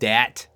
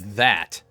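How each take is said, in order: First: The word begins with a hard d sound. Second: The word begins with a th sound. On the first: The speaker calls it wrong. "We're lazy and some uh, on the pronunciation of our words" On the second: The speaker calls it right. "It's T H A T"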